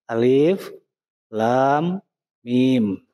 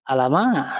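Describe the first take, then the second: First: It is read as three separate letter names. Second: It is read as one joined word. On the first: The speaker calls it right. "murni huruf hijaiyah" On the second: The speaker calls it wrong. "dibacanya bukan alama"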